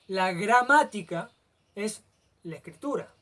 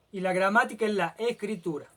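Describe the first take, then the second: First: "gramática" lento y fuerte, con pausas antes de "es" y "la escritura"; énfasis marcado. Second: Said in the usual way. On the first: Shown as a demonstration. (recalcando "gramática" despacio y con pausas)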